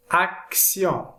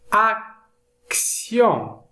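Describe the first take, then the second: First: Said in the usual way. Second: "action" split in two with a gap; slow, broken-up "action"; careful word modelling. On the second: Shown as a demonstration. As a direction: sound out "action" slowly, ac, then tion. Split model, then said whole.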